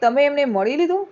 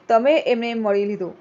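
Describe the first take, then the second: First: It is said as a question. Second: It is said as a plain statement.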